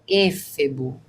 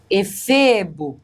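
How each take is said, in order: First: The stress falls on the third-to-last syllable. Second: The stress falls on the second-to-last syllable. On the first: The speaker calls it wrong. "não é éfebo" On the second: The speaker calls it right. "paroxítona que termina em O"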